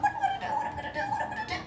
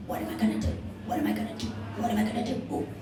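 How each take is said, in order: First: Very high, squeaky frantic turkey; a frightened bird squeaking its worry over and over; panicked turkey voice. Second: Whispered, breathless worry of a crushed bird; softer, whispered panic; squashed whisper. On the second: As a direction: barely get the words out under the weight. Turkey being squished under mayor. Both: Acted.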